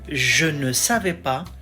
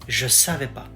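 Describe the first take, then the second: First: The 'ne' particle is fully pronounced. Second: The 'ne' particle is dropped entirely. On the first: "So it goes from" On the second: "the particle ne is often skipped"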